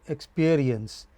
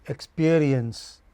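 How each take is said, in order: No difference in how they are said.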